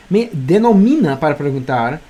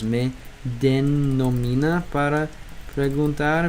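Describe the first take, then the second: First: Said in the usual way. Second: Slow sounding out. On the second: Shown as a demonstration.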